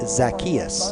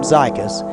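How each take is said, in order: First: The name is pronounced as Zacchaeus. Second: The name is pronounced as Zykus. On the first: The speaker calls it right. "I believe it's Zacchaeus" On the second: The speaker calls it wrong. "I called him Zykus"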